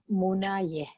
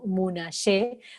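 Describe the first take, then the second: First: The y sounds like English y. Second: The y sounds like Rioplatense Spanish y. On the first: The speaker calls it right. "pronunciando la Y como en inglés" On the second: The speaker calls it wrong. "como nuestro rioplatense, no Munaye"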